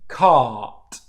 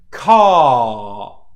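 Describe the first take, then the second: First: The word is said quickly at natural speed. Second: The vowel is held long and said slowly. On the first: "And then at natural speed" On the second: "followed by the two second rule"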